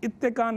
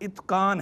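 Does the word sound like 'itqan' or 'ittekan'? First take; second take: ittekan; itqan. First: It has a long t sound before 'kaan'. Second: A short t runs straight into 'qaan'. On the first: The speaker calls it wrong. "गलत तौर पर इत्तेकान इत्तेकान कहते रहते हैं" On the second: The speaker calls it right. "ये दुरुस्त सीगा अल इत्क़ान है"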